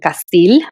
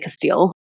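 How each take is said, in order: First: The name is said with a Hispanic accent. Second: The name is said with an English accent. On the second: "Or I would just say Castile"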